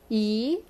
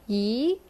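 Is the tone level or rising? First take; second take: rising; rising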